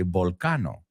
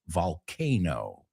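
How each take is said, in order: First: The word is said with a learner's pronunciation. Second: The word is said with standard English pronunciation. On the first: The speaker calls it wrong. "I hope you don't say volcano" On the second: The speaker calls it right. "It's volcano, right?"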